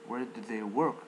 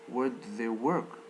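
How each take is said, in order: The two takes are said the same way.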